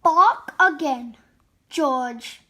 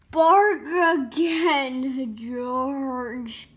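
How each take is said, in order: First: Said in the usual way. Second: Very drawn-out, weighty order; slow command. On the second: A narrator's reading. The vet tells George to bark once more, slow drawn-out command. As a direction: stretch each word out slowly. Vet's line, said slowly.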